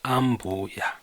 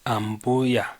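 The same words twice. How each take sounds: First: The syllable mbu is said on a low pitch. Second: The syllable mbu is said on a high pitch. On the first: It means mother-in-law. "And for mother-in-law" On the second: It means grandmother. "For grandma, it's Haiton, Mbu"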